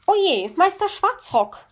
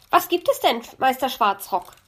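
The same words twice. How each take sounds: First: High, loud startled cry. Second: High, loud bird voice; bright magpie asking innocently. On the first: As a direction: caught in the act, startled. Magpie caught by the raven. (erschrockener Ausruf) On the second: Magpie answers the raven. (hohe, laute Elsterstimme) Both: A narrator's reading.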